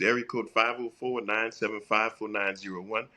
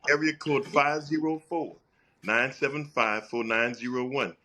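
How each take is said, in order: First: The number is said at normal speed. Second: The number is said slowly.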